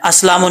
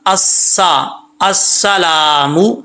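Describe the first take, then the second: First: Quick अस्सलामु with the double स run together; mistaken reading. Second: Slow अस्सलामु, holding a thin double स and long ला; doubled seen. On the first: Retold or imitated. Teacher shows what not to read, slurred mispronunciation. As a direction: squash अस्सलामु into as-lamu. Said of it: "नहीं पढ़ना". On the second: Shown as a demonstration. Teacher shows the shadda, careful recitation. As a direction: lean on स, stretch ला in अस्सलामु. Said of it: "शद है वो भी पढ़नी है".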